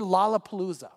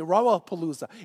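First: The word begins with a clear L sound. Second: The word begins with an R-like sound. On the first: The speaker calls it right. "say the word Lollapalooza" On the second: The speaker calls it wrong. "they weren't able to say it correctly"

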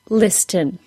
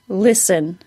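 First: The word is said with a clear T sound. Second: The word is said with no T sound. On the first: The speaker calls it wrong. "You are not hearing listen" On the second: The speaker calls it right. "those T's are absolutely silent"

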